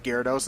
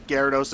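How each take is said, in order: First: Gyarados said as ghee-AR-uh-dose; misread pronunciation. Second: Gyarados said as GAIR-uh-dose; anime pronunciation. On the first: Recalling a childhood misreading, Gyarados as ghee-AR-uh-dose. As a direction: split Gyarados into "ghee-AR", stress on AR. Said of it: "instead of Gyarados". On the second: Citing the anime on a Pokemon name, Gyarados as GAIR-uh-dose. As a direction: open Gyarados with a "gair" syllable. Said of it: "is pronounced Gyarados instead of". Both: Shown as a demonstration.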